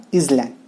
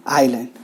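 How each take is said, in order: First: "island" with the s sounded; mispronunciation. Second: "island" with a silent s; correct pronunciation. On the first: Teacher warning students against mispronouncing, "island" said as IZ-land. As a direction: say "island" as IZ-land, voicing the silent s. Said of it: "not island". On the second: Teacher showing students the correct pronunciation, "island" with silent s. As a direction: say "island" as EYE-lund, no s sound. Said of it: "The correct pronunciation is island". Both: Shown as a demonstration.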